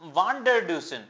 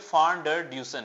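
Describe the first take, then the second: First: The name begins with a V sound. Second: The name begins with an F sound. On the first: This is how the written name reads. "पढ़ने में है ये रेसी वान डर डूसन" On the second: This is how the name is said in South Africa. "बोलने में ये फान डर ड्यूसन है"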